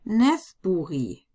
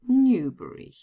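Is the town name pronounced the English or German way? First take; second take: German; English. First: The name is read with German letter sounds. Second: The name is read with English letter sounds. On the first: "pronounce them in German" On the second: "better known as Newbury"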